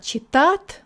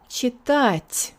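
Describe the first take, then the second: First: The final t is hard, without a hiss. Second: The final t is soft, with a strong hiss. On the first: The speaker calls it wrong. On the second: The speaker calls it right. "there's a lot of hiss in it"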